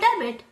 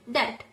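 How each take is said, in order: First: The B sound is pronounced in the middle. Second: The B sound is left out entirely. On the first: The speaker calls it wrong. "It is not about debit" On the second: The speaker calls it right. "We call the B letter silent"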